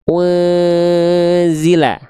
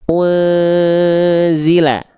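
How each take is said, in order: No difference in how they are said.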